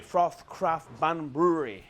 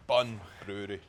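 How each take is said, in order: First: "Froth Craft Bun Brewery" said slowly, each word crisp; slow careful enunciation. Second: "Bun" hit harder than "Brewery"; stress on BUN. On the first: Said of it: "my new way to practice enunciation". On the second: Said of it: "emphasise the bun". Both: Shown as a demonstration.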